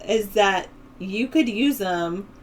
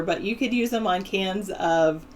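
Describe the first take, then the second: First: COULD stretched slow and rising; slow emphatic delivery. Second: Said in the usual way. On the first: Shown as a demonstration. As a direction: lean on the word could, slow. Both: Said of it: "That's what I would say".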